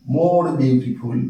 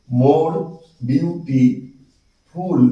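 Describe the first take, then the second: First: Said in the usual way. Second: Very slow "more beautiful", with gaps; broken into syllables. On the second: Shown as a demonstration. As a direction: draw out "beautiful" syllable by syllable after a pause. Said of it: "ভেঙে ভেঙে উচ্চারণ করতে হয়".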